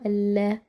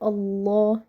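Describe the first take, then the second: First: The L in Allah sounds light and thin. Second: The L in Allah sounds heavy and full. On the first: The speaker calls it wrong. "not Allah" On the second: The speaker calls it right. "Why do we say Allah"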